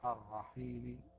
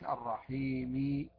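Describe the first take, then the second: First: The final vowel is only faintly, partly voiced. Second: The final vowel is fully voiced. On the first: The speaker calls it right. "أقول الرحيم الرحيم هكذا، لا أعطيها كامل الحركة" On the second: The speaker calls it wrong. "مش الرحيم ولا نستعين وأعطيها كامل الحركة"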